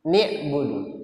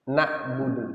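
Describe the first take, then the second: First: The first vowel is an i sound. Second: The first vowel is an a sound. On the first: "beliau membacanya kasrah" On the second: "Yang benar adalah dibaca fathah"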